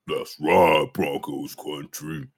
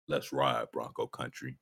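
First: It is said at a higher pitch. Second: It is said at a lower pitch.

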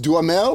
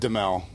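First: The name is said with every syllable, French style. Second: The name is said shortened, with a syllable dropped. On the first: This is how it is said in France. "if you're in France, I think it's Duhamel" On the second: This is how the family has always said it. "we've always said Duhamel"

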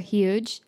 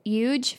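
First: The word starts with a clear H sound. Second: The word starts without an H sound. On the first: The speaker calls it right. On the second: The speaker calls it wrong.

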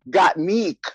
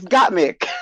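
First: The second syllable has a long 'ee' vowel. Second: The second syllable has a short 'i' vowel. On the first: This is how others mispronounced the name. The speaker calls it wrong. "calling Got Mick, Got Meek" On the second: This is the name's proper pronunciation. The speaker calls it right. "bitch, it's Got Mick. where did Meek come from?"

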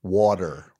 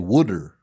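First: It is said in a New Jersey accent. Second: It is said in a Philadelphia accent.

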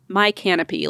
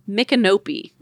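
First: The name begins like the word 'my'. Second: The name does not begin like 'my'. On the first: The speaker calls it wrong. "not my canopy like I thought it was at first" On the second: The speaker calls it right. "It's called Micanopy"

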